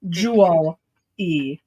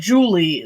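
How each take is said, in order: First: It is split into 'jewel' and a separate 'ee'. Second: It is said smoothly, like the personal name. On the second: It refers to the personal name. "sound like Julie, the name"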